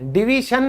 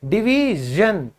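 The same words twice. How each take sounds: First: The -sion ending has a hissing voiceless consonant. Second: The -sion ending has a buzzing voiced zh consonant. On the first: The speaker calls it wrong. "डिवीजन नहीं होता है, बहुत लोग गलती करते हैं।" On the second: The speaker calls it right. "जन बोलोगे।"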